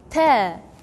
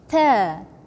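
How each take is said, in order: First: The consonant is released softly. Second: The consonant is released softly.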